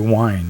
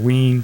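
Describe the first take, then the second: First: It is said like the English word wine. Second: It is said with a w and long ee. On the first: "that's got to be, got to be wine, right?" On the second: "Wine or ween, something like that"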